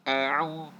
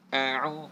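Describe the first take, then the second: The two takes are said the same way.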